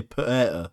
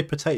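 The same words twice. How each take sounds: First: "potato" with the second T swallowed; "potato", Yorkshire-style with no middle T; dropped T. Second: Said in the usual way. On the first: Shown as a demonstration. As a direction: say "potato" with a glottal stop before the last syllable. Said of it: "Don't pronounce the letter T". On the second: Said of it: "Unless you say T".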